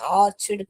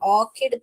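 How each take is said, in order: First: The middle consonant is a 'ch' sound. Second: The middle consonant is a 'k' sound. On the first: The speaker calls it wrong. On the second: The speaker calls it right.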